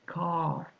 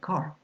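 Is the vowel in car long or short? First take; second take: long; short. First: The vowel is long, with no R sound. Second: The vowel is short, with the R sounded. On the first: The speaker calls it right. "It's longer" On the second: The speaker calls it wrong. "Not going to say car"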